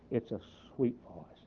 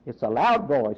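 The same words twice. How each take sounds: First: Very soft, gentle delivery; sweet voice. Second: Full-voiced, no whisper; loud voice. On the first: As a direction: say it tenderly, well under your usual volume. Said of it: "it was a sweet voice". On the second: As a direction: state it firmly at full speaking volume. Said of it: "It's not a whisper". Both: Shown as a demonstration.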